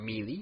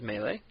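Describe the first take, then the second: First: The word is pronounced in an odd way. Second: The word is pronounced the usual way.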